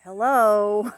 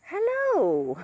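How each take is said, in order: First: Loud drawn-out hello at usual pitch; imitating pet bird. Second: High, loud hello swooping down; Missus Doubtfire. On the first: Owner showing her bird's first hello, loud imitation. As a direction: hold out a loud, level bird greeting. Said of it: "she goes". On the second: Retold or imitated. Owner showing her bird's other hello, high hooting impression. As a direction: sing out a fluty, high-pitched greeting. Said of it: "kinda like Missus Doubtfire".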